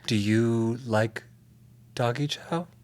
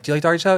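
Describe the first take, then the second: First: It is said in a seductive tone. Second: It is said in a plain, casual tone.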